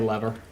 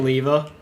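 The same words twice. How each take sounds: First: It is said with an American pronunciation. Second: It is said with a non-American pronunciation. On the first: "Americans say lever" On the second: "I say lever"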